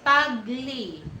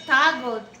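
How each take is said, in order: First: The name ends with an 'ee' sound. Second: The name ends with an 'al' sound. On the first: The speaker calls it right. "Tagli, Tagli" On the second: The speaker calls it wrong. "it's not Tagal"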